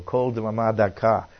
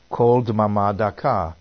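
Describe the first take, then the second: First: Said in the usual way. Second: Kol Dmama Daka said slowly in careful Hebrew, each syllable spaced; Hebrew phrase. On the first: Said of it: "It's a small whispering voice". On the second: Shown as a demonstration. Preacher quotes the original Hebrew to the congregation, slow and careful. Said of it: "which is translated well in the margin".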